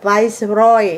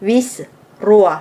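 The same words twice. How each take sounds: First: Viceroy said the English way, "vais-roy"; English pronunciation. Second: Viceroy said the French way, "vees-rwa"; French pronunciation. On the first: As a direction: say Viceroy with an "eye" vowel, as in English. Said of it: "ภาษาอังกฤษเอิ้นว่า". (ອອກສຽງ Viceroy ແບບອັງກິດ "ວາຍສ໌ຣອຍ") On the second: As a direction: say Viceroy as French "vice-roi", ending in "rwa". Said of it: "ภาษาฝรั่งเขียนเกือบคือกัน แต่ออกเสียงต่างกัน". (ອອກສຽງ Viceroy ແບບຝຣັ່ງ "ວິສ-ຣົວ") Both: Shown as a demonstration.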